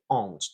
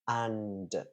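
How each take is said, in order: First: The vowel is nasal, sounding close to 'ond'. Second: The vowel is oral, with a clear n and d. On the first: The speaker calls it wrong. "as a nasal vowel" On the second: The speaker calls it right. "You can hear the a, then the n, then the d"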